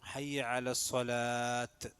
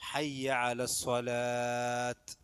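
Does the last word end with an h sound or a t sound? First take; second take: t sound; t sound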